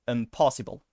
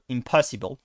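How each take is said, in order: First: The unstressed vowels are reduced to schwa-like sounds. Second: The unstressed vowels are said as full vowels. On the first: The speaker calls it right. "the other ones they are similar to a schwa" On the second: The speaker calls it wrong. "I think that is weird. Uh, impossible with an O"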